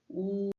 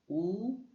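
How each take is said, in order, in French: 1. La hauteur reste haute et plate. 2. La hauteur monte du milieu vers le haut.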